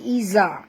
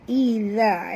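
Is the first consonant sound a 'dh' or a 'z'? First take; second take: z; dh. First: The consonant is a buzzing 'z' sound. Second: The consonant is a soft 'dh' with tongue tip out. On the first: The speaker calls it wrong. "bukan iza. Kalau iza dah jadi ... zai" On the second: The speaker calls it right. "Iza ya, lembut. Huruf zal adalah makhrajnya di hujung lidah"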